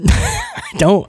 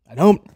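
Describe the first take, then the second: First: Squeaky high laughing repeat; real giggling insistence. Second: Said in the usual way. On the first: Real, not acted. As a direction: break into a laugh on it.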